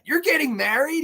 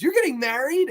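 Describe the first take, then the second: First: High incredulous question; can't believe what he's hearing; shocked disbelief. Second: High, stunned repeat of the question; shocked disbelief again. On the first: Robin shocked, retold. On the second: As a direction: ask it once more, still stunned. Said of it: "He asks her about five times". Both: Retold or imitated.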